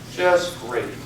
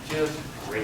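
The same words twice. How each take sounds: First: It sounds sincere and enthusiastic. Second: It sounds flat and unconvincing. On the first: Life really is going well. The speaker calls it right. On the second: Life is not really going well. The speaker calls it wrong.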